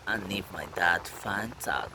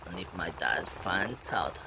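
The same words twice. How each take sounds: The two takes are said the same way.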